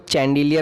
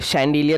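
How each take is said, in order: First: The word begins with a 'ch' sound. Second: The word begins with a 'sh' sound. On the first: The speaker calls it wrong. "इसको चैंडिलियर नहीं बोलेंगे" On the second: The speaker calls it right. "इसे शैंडिलियर बोला जाता है"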